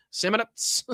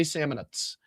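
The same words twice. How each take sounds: First: "Samanats" in a high, silly voice; childish playfulness. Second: Said in the usual way. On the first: Shown as a demonstration. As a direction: savour "Samanats" high-pitched like a giddy child. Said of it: "What a child I am". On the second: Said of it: "It's really fun to say Samanats".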